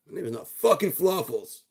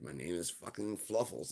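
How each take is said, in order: First: "not fucking Fluffles" much higher and louder; the dog furiously rejects the name; indignant outburst. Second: Said in the usual way. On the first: Acted.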